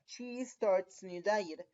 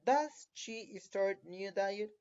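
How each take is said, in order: First: Slow model sentence, falling at "diet"; positive statement. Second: Slow model question, leaning on "Does"; question form. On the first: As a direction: read "She starts new diet" slowly as a statement, tune falling at the end. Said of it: "si la oración positiva era". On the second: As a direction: read "Does she start new diet" slowly, stressing DOES. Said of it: "de pregunta va a ser". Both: Shown as a demonstration.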